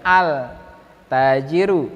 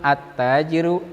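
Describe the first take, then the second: First: The l sound is clearly pronounced. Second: The l merges into a doubled t. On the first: The speaker calls it wrong. "bukan al tajiru" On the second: The speaker calls it right. "tetapi langsung at tajiru"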